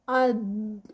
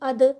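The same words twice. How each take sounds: First: The final consonant is held and prolonged. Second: The final consonant is stopped with a bounce. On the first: The speaker calls it right. "यानी उसको हम थोड़ा सा लंबा करते हैं" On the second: The speaker calls it wrong. "अगर मैं इसकी आवाज़ को रोकूंगी"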